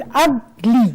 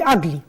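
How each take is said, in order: First: "ugly" in two slow beats, ug, then ly; split into syllables. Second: Said in the usual way. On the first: Shown as a demonstration. Teacher shows how the word divides in two, saying "ugly" syllable by syllable. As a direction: break "ugly" apart between ug and ly. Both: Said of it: "I can divide it into two".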